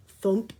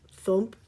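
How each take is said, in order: Both takes have the same delivery.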